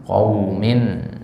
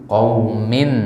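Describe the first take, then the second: The two takes are said the same way.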